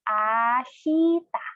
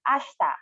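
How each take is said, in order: First: It is said slowly, syllable by syllable. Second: It is said at normal speed, smoothly joined.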